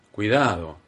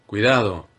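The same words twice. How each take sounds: First: Said in the usual way. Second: A louder, sharp cry of warning; shouted caution, fall at the end; urgent warning. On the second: A narrator's reading. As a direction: call out the danger firmly. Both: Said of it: "exclamé".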